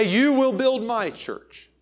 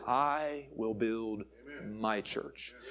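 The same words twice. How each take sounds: First: "You" punched high and loud, drawn out slowly; "You will build" stressed hard on You, high and slow. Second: "I" leaned on, quiet and very slow; soft slow "I will build my church" with weight on I; stress on I. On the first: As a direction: hammer the wrong word "You" to show the error. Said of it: "He did not say". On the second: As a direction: lay down the true word "I" gently and slowly. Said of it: "He said". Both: Shown as a demonstration.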